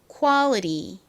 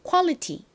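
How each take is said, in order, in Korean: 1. a는 ah처럼 나고, t는 살짝 튕기듯 발음합니다. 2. a는 uh처럼 나고, t는 강하게 발음합니다. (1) "미국식 발음에서는 이 A가 아에 더 가깝게 소리가 납니다" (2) "먼저 한국식으로 발음해 보도록 할게요"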